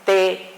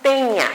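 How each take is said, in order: First: "tenía" split into TE, NÍ, A with pauses; syllable by syllable. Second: "teña" in two syllables, the i swallowed into ñ; merged diphthong. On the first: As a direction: separate "tenía" as te... ní... a. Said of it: "la pronunciación fuerte". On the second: Teacher showing the wrong reading, "teña" with no stressed i. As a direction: run "tenía" together as "teña". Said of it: "no es". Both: Shown as a demonstration.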